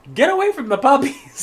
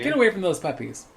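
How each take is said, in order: First: High, loud squawked order; talking macaw. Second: Milder, higher-pitched mock macaw order; talking macaw. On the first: Retold or imitated. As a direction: screech it like a jealous parrot. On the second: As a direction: lightly imitate a bossy bird. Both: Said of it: "the bird honestly said".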